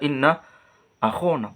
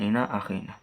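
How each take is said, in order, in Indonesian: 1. Vokal setelah kh adalah o. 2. Vokal setelah kh adalah i. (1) "harusnya dibaca inna akhona" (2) "bukan inna akhina"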